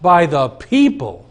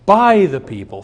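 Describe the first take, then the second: First: The stress is on the word people. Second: The stress is on the word by.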